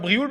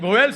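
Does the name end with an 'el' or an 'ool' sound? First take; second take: ool; el. First: The name ends with an 'ool' sound. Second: The name ends with an 'el' sound. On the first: The speaker calls it wrong. "ça se dit pas Brioul" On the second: The speaker calls it right. "ça se dit Bruel"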